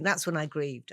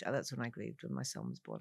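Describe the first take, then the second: First: Said in the usual way. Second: Softer, sinking repeat of grieved; quiet. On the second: Real, not acted. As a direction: let it drop to a hush.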